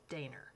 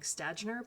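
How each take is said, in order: First: The name begins with a sh sound. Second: The name begins with a plain s sound. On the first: The speaker calls it right. "the S at the beginning is more of a, a sh sound" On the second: The speaker calls it wrong. "we would look at this in English and think"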